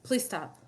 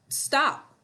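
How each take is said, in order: First: It is said quietly and calmly. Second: It is said loudly with a raised voice.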